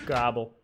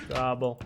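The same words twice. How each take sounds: The two takes are said the same way.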